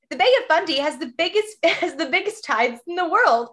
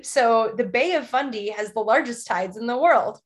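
First: Higher-pitched mock tourism pitch, breaking into a laugh; exaggerated ad read. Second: Reading off a prompt; lightly put-on advert delivery; mild ad read. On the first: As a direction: overdo the advert delivery. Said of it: "I can make it worse". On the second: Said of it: "like you're reading a prompt".

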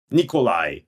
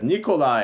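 First: Mildly determined Nikolai, even and firm. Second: Higher-pitched imitation of a name being called. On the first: Retold or imitated. Giving a fake Russian name at Starbucks, mildly determined. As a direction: give the name with understated resolve. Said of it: "in a really determined, you know, way". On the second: Barista calling the customer's drink name, mildly called out. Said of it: "then they called it out".

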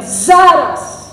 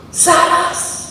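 First: "Zaraz!" called out louder with a falling tune; emphatic Zaraz. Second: Whispered Zaraz. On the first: Preacher to congregation, proclaiming "Zaraz!" loudly. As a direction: punch "Zaraz!" as an emphatic call. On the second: Preacher to congregation, whispering "Zaraz!". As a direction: hush the word "Zaraz!" in awe. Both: Shown as a demonstration. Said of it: "Nie miał chwilowego zaćmienia".

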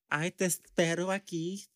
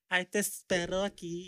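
First: Higher, sing-song sassy lilt; slithering sassy voice. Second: Slithering sassy voice. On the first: Mimicking the coworker's sassy slithering talk. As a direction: slide through it with sass. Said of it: "slithering succotash type of voice". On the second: Imitating how the electrician talks, higher and sassy. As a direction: give it that slithering sass. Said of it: "that's how he talks". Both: Retold or imitated.

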